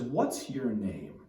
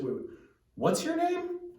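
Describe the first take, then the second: First: It sounds firm and insistent. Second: It sounds puzzled and questioning.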